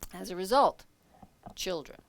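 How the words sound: A short pause follows 'as a result'. The speaker calls it right. "there's that little pause after it"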